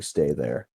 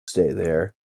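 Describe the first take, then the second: First: Low, soft Stay there; quiet spoken command. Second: Said in the usual way. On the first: Acted. Father quietly tells kids to stay back, soft and low. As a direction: gently say Stay there, lower and softer. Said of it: "and actually saying". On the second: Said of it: "as if to say".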